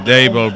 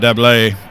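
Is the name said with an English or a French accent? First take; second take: English; French. First: The name is said with a plain English accent. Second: The name is said with a French accent.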